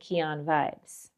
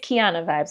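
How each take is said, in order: First: The first word ends without a final vowel. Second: The first word ends with an 'ah' vowel. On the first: The speaker calls it wrong. "I kept saying Kian Vibes" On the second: The speaker calls it right. "but no, it's Kiana Vibes"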